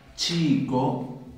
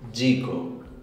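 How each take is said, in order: First: It begins with a voiceless 'ch' sound. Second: It begins with a voiced 'j' sound. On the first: "nuestra C H de palabras como" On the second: "si yo las pronunciara con este sonido"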